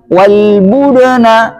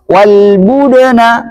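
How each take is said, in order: The two takes are said the same way.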